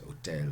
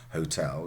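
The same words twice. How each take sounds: First: The word begins directly with a vowel. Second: The word begins with a breathy h sound.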